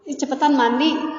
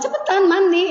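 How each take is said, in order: First: It is said in a calm, normal voice. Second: It is said in a raised, higher voice.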